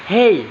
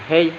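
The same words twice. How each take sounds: First: HEY swooping high then falling; stylised HEY with a big pitch arc; individual intonation. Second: Said in the usual way. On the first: Shown as a demonstration. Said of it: "perbedaan intonasi dan gaya bahasa tersendiri". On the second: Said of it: "punya gaya tersendiri ketika mengucapkannya".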